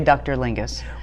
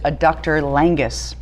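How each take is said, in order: First: The last word has an 'ih' vowel. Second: The last word has an 'ah' vowel. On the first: The speaker calls it right. "It's actually adductor lingus" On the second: The speaker calls it wrong. "I pronounce it adductor langus. ... mispronouncing it"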